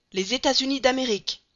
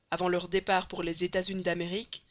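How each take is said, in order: First: High, loud exclamation of sudden hope; excited cry. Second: Said in the usual way. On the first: Acted. Passepartout seeing the poster, excited cry. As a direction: burst out as if you found the answer. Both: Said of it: "s'écria Passepartout".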